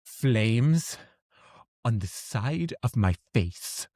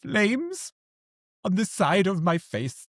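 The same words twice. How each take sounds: First: Slow, drawn-out mock seething; acted anger. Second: High-pitched, hammed-up exasperation; mock anger. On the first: Imitating an angry Clue character, understated slow anger. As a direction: quote an angry film character, slowly and with restraint. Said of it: "she's angry, and she's like". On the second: Colleagues quoting Clue when something irks them, high mock anger. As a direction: play irked in a raised, theatrical voice. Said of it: "look at each other and go".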